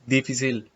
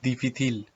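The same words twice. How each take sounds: First: The c is pronounced like s. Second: The c is pronounced like th. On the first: This is the Latin American Spanish pronunciation. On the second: This is the Castilian Spanish pronunciation.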